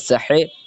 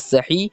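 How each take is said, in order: First: The word ends in an 'ay' vowel. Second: The word ends in a long 'ee' vowel.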